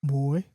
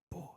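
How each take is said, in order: First: Wolf growling a single word; low growl. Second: Barely voiced wolf growl; very quiet growl. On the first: Wolf to the man walking beside him, low growl. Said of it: "lets out a low growl". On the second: Wolf answering the man leaning in close, very quiet growl. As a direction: growl the word under the breath. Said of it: "very, very quiet growl". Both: A narrator's reading.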